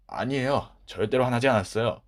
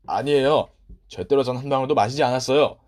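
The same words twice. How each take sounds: First: Said in the usual way. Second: Loud, insistent denial; loud protest. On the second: Acted. Boy loudly denying he drank the tea. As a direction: protest his innocence hard.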